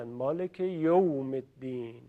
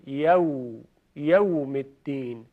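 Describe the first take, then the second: First: «یوم» as Persian yom, quiet; mock the wrong «یوم» softly; mistaken reading. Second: «یوم» said yawm with open a; correct yawm. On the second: Shown as a demonstration. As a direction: stress the fatha in «یوم». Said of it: "حرف یا فتحه داره".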